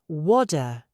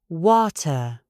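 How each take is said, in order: First: American accent, the t barely touched. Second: British accent, the t released sharply. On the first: "The American says water. The tongue barely touches the roof" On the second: "The British speaker says water. ... My tongue goes up. It stops the air, and it releases with a sharp hiss"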